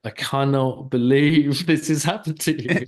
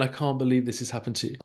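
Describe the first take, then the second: First: Incredulous, with a laugh breaking in. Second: Said in the usual way. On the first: Acted. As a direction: lean on "cannot believe" in mock disbelief. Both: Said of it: "I can imagine you going".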